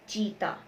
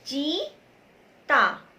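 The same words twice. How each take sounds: First: Said in the usual way. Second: Stretched teaching demo; slowly sounded out. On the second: Shown as a demonstration. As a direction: say चीता very slowly, each syllable stretched. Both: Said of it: "बोल के देखिए".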